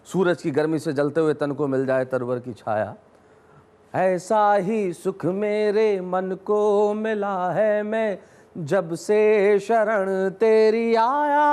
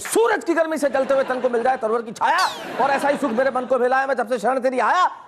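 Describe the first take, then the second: First: It is recited gently, like a devotional hymn. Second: It is declaimed loudly in a forceful heroic style.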